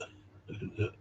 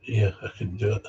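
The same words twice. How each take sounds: First: Breathy whispered echo. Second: Said in the usual way. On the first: Retold or imitated. Echoing the woman's confession in a whisper. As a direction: let it fall to a whisper.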